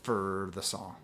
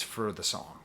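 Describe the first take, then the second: First: "For" drawn out into a low, r-heavy "ferrr"; low, soft replay of "For" as "fer"; mimicking odd pronunciation. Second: "for" said oddly as a reduced, r-heavy "fer"; an unintended r-coloured "for"; odd pronunciation. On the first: Shown as a demonstration. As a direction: echo your own odd "For", stretched and quieter. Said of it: "pronounced it like that". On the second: Real, not acted. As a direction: let "for" slip toward "fer" in "for the song". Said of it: "I don't know why I pronounced it like that".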